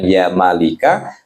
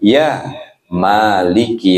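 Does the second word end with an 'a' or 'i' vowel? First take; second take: a; i. First: The second word ends with an 'a' vowel. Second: The second word ends with an 'i' vowel. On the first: The speaker calls it wrong. "bukan ya malika" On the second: The speaker calls it right. "tetapi ya maliki"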